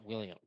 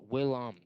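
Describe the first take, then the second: First: The name ends with a 'yum' sound. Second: The name ends with a plain 'em' sound. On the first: The speaker calls it wrong. "It's not William" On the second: The speaker calls it right. "It's Willem"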